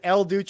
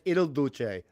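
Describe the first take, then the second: First: The first word is pronounced 'el'. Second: The first word is pronounced 'il'. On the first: The speaker calls it wrong. "I said El Duce" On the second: The speaker calls it right. "I should have said Il Duce"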